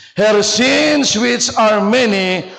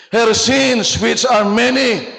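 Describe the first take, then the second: No difference in how they are said.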